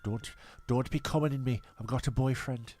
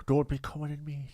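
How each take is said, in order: First: Retold line in a hint of Sunderland; Sunderland accent. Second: Retold line in put-on Irish; Irish accent. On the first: Host quoting a past lover, Sunderland accent. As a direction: quote her with a Sunderland accent. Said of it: "Why do you sound like you're from Sunderland?". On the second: Host re-quoting a past lover, Irish accent. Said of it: "How I've become Irish now".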